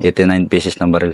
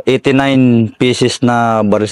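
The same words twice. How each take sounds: First: Said in the usual way. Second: Eighty-nine spoken slowly and deliberately, each word weighed; drawing out eighty-nine to let the number sink in; slow emphatic count. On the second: Real, not acted. Soldier telling the interviewer about the captured guns, slow and emphatic.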